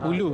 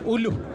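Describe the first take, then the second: First: It ends in a plain u vowel. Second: It ends with a final h sound. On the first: This is the standard form of the word. "Kalau macam perkataan hulu kan" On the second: This is how other people say it. "Ada yang juga sebut uluh"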